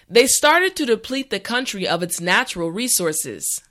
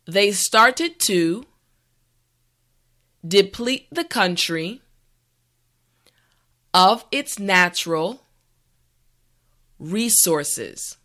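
First: The sentence is said at a natural speed. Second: The sentence is said slowly and carefully. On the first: "the last time at a regular pace" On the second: "this time repeat after me"

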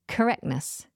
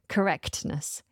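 First: The T sound after the K is dropped. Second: The T sound after the K is pronounced. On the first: The speaker calls it right. "So don't worry about that T" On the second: The speaker calls it wrong. "It's quite difficult to pronounce a T straight after a K"

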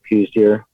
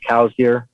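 First: The first word sounds like 'coos'. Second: The first word sounds like 'cows'. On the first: This is the local pronunciation. The speaker calls it wrong. "a lot of the Arizona residents pronounce it coos deer" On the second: This is the technically correct pronunciation. The speaker calls it right. "technically pronounced cow's deer"

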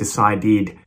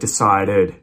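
First: The ending has a clear 'i' vowel. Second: The ending has a reduced schwa vowel. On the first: The speaker calls it wrong. "she's pronouncing the I sound instead of a schwa for the ED ending" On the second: The speaker calls it right. "instead of a schwa"

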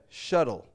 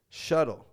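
The two takes are said the same way.

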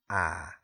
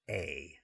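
First: The vowel is an open 'ah' sound. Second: The vowel is an 'ay' sound like 'hey'. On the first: "it sounds like that A-H" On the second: "sounds like A-Y, like hey without the H"

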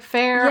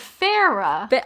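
First: The name is said as one syllable. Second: The name is said as two syllables. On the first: The speaker calls it wrong. "The first time I read it, I thought it was Fair" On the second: The speaker calls it right. "But no, it's Farah"

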